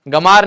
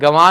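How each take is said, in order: First: The word is said with an m sound. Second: The word is said with a nasal w sound. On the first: The speaker calls it wrong. "गमार नहीं" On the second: The speaker calls it right. "गंवार और ज्ञानी"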